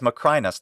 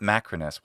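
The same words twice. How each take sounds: First: The stress is on the second syllable. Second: The stress is not on the second syllable. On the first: The speaker calls it right. "the stress goes on the long e. Long e becomes I in English" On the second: The speaker calls it wrong. "not Macrinus"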